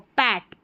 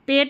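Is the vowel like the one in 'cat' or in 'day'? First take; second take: cat; day. First: The vowel is an open 'a' as in cat. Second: The vowel is a long closed 'ay' sound. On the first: The speaker calls it right. "पैट पढ़ना है" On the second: The speaker calls it wrong. "पेट नहीं बोलना है इसको"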